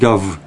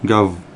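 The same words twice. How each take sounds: First: The word ends with a voiced V sound. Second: The same.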